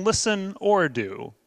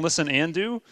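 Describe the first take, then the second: First: Slow, with weight on "or"; stress on or. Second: Weight placed on "and"; stress on and. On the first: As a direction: draw out "or" as the wrong option. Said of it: "because it's not an "or". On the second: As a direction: make "and" the word that counts. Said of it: "I underline the word "and". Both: Shown as a demonstration.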